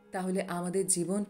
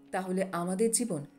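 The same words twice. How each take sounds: The two takes are said the same way.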